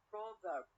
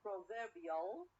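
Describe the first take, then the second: First: Proverb with PRO stressed, falling; stress on first syllable. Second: Proverbial slow, stressed on VER; stress on second syllable. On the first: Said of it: "from the first syllable". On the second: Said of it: "to the second syllable". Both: Shown as a demonstration.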